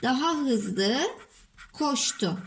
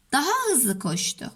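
First: Drawn-out phrase, pause, last word; dictating while writing. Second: Said in the usual way. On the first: Shown as a demonstration. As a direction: dictate in pieces as you write. Oluşturduk cümleyi.

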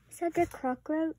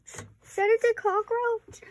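First: Said in the usual way. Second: High, slow, alarmed question about Is that the cockroach; Is that the cockroach, pitched high and stretched out. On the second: Real, not acted. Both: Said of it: "Oh no, okay, that's not".

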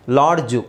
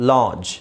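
First: ಲಾಡ್ಜು with a hard d and final u; D sounded. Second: ಲಾಡ್ಜ್ as "laaj", no d or final vowel; D silent. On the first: Teacher contrasting forms for pupils, ಲಾಡ್ಜು with d and u pronounced. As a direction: say ಲಾಡ್ಜು as "laad-ju". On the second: Teacher modelling silent D, ಲಾಡ್ಜ್ as a smooth "laaj". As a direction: glide straight into j in ಲಾಡ್ಜ್. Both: Shown as a demonstration. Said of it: "ಡಿ silent ಮಾಡಿ".

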